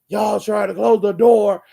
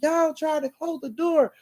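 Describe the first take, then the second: First: It is said in a deep man's voice. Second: It is said in a child's voice.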